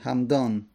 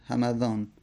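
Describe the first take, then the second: First: The m has no vowel after it. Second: The m is followed by a vowel. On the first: It names a tribe in Yemen. "همدانی با سکون میم" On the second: It names a city in Iran. "اینجا میم حرکت بده، بگو همه. ... معجمه بکن"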